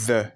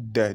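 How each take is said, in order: First: The word begins with a soft th sound. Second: The word begins with a hard d sound. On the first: The speaker calls it right. "la bonne prononciation, c'est the" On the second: The speaker calls it wrong. "Et non de"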